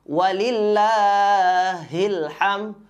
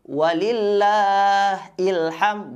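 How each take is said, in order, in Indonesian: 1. Penghubung langsung menyambung ke kata itu, dengan h yang jelas. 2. Kata-katanya dipisah, dan kata berikutnya dimulai dengan vokal. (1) "Kita ulangi"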